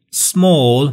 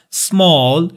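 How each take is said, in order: First: British "سمال" with a rounded aw; British accent, round the vowel in "سمال"; British pronunciation. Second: American "سمال" with an open ah; American accent, unrounded open vowel in "سمال"; American pronunciation. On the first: English teacher contrasting two ways of small, British accent. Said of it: "سمال بریتیش هست". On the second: English teacher contrasting it with British, American accent. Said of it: "سمال امریکن هست". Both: Shown as a demonstration.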